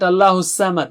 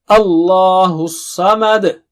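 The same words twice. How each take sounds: First: The s sound is thin and light. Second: The s sound is thick and heavy. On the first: The speaker calls it wrong. "It's not Allahus Samad" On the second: The speaker calls it right. "Saad is very thick and high"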